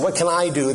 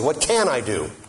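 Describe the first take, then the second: First: The stress falls on the word I. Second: The stress falls on the word can. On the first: It asks what the speaker personally is able to do. The speaker calls it wrong. "The emphasis is wrong. You have to take the emphasis off I" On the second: It asks what possibilities exist, opening up options. The speaker calls it right. "put the emphasis on can"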